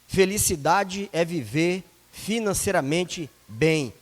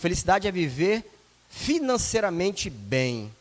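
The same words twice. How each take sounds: First: The sentence is spoken very slowly. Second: The sentence is spoken at a normal pace.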